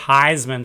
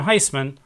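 First: The middle consonant is a buzzing Z sound. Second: The middle consonant is a hissing S sound. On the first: The speaker calls it wrong. "that's probably a Z sound. So they mispronounce it Heisman" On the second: The speaker calls it right. "everybody in our family pronounces the name Heisman"

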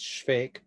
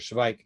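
First: The name is said with Czech pronunciation. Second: The name is said with German pronunciation. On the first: "But in Czech, it's" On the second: "giving it the German spelling and pronunciation"

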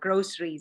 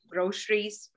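First: The middle consonant is an s sound. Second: The middle consonant is an sh sound. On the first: "as in sock" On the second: "as in like shocked with the sh"

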